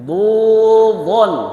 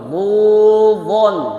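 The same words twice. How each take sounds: No difference in how they are said.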